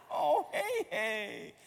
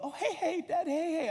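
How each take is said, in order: First: Slow, high, mock-mournful child voice; heartbroken little girl. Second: Put-on high-pitched little girl's excitement; delighted daughter. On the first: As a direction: draw out a child's lament, hammed-up. Repeats daughter's grieving over nugget. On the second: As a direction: imitate a child thrilled by her favourite. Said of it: "she loved".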